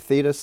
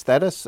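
First: "Thetis" said as THEE-tis, long ee sound. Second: "Thetis" said as THET-is, short e as in "bet". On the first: Host agrees either way, saying "Thetis" as THEE-tis. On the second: Host allows both, then "Thetis" said THET-is. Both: Shown as a demonstration. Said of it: "as you like".

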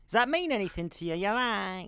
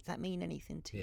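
First: Mock psychic medium, quick and probing; fortune teller. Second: Much softer, quick mock medium; hushed fortune teller. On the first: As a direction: ham up a stage psychic reading. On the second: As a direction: drop to a hushed psychic murmur. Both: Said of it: "you sound like a psychic".

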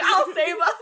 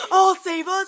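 First: High, loud heroic vow; heroic declaration. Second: Loud heroic mock vow; heroic echo. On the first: Pretend. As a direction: proclaim it like an action hero. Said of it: "I'm like". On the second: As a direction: echo the hero line louder. Echoing the heroic line.

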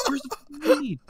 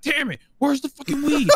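First: Much higher voice, almost breaking into a cry; the frustrated cop's yell straining and cracking; retold cop scream, cracking. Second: Retold cop scream. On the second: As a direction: play the furious cop screaming for the weed. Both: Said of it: "and he would start screaming".

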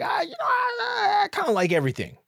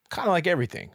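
First: Squeaky, much higher whine; mock whiny self. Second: Said in the usual way. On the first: Narrator mocking his own dodge to the host, whiny. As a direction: parody yourself as a pathetic whiner.

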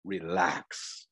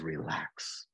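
First: Soft, calm single word; calm reassurance. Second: Much softer, low, soothing word; God hushing an overwhelmed believer, very softly; hushed reassurance. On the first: Moses telling the people, soft and calm. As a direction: Moses calming the frightened people, softly reassuring. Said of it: "Moses said". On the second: God soothing an overwhelmed believer, hushed and low. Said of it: "He says". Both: Retold or imitated.

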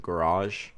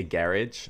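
First: "garage" with a long final ah-zh; American garage. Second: "garage" stressed on the first syllable, ending in -idge; "garage" as GARR-idge; British garage. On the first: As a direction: say "garage" as guh-RAHZH. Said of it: "instead of garage". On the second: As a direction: say "garage" to rhyme with carriage. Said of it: "I say garage instead of garage". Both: Shown as a demonstration.

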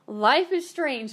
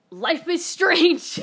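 First: Slow, loud emphatic statement. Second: High, loud, drawn-out announcement; slow, booming mock trailer voice; dramatic title drop. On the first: Real, not acted. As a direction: lean on every word, meaning it. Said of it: "Let me fucking tell you". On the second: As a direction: ham it up like a game title. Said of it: "I had to say it. I couldn't resist".

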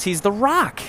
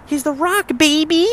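First: Said in the usual way. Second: Much higher, punchy hype call; hyped wrestling announcer. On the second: Acted. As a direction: sell the name like a ring announcer. Repeated as hype.

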